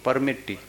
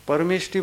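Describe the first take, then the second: First: The cluster is pronounced as a double 't'. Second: The cluster is pronounced 'sht'. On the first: A small child says it. "तो कहते हैं परमिट्टी" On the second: An adult says it. "परमिष्टि बोलो"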